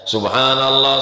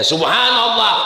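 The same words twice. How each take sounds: First: It is said aloud in a calm, ordinary way. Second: It is said pointedly, aimed at someone provocatively.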